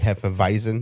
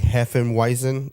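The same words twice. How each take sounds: First: The w is said with a v sound. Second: The w is said with an English w sound. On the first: "the W is pronounced with a V sound" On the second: "when you see Hefeweizen"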